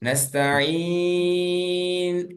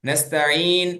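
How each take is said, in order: First: The long vowel is held for a long time. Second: The long vowel is held for a short time. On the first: "ஆறு ஹரக்கா" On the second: "ரெண்டு ஹரக்கா"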